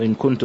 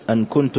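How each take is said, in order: First: "إن كنت" said "in kuntu"; kasra on the hamza. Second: "أن كنت" said "an kuntu"; fatha on the hamza. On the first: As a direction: give إن an "i" vowel. Reader offers the alternative vowelling. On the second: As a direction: open the hamza of أن to an "a". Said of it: "بفتح الهمزة". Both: Shown as a demonstration.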